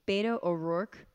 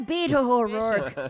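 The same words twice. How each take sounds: First: The name is said in an ordinary accent. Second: The name is said in an imitated accent.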